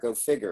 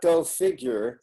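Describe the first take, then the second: First: The second word is said like 'figger'. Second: The second word is said like standard 'figure'. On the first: "It's Go F I G G E R, Go Figure. It's a Kentucky pronunciation" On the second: "that's not Go Figure"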